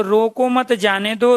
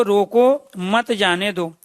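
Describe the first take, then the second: First: रोको मत run together, then जाने दो rising; group रोको with मत, let जाने दो lift; pause after मत. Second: रोको set apart, then slow falling मत जाने दो; pause after रोको. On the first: Teacher showing students the comma's effect, pause after मत. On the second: Teacher showing students the comma's effect, pause after रोको. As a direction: break after रोको, join मत to जाने दो slowly. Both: Shown as a demonstration. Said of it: "अल्प विराम का चिन्ह लगाया".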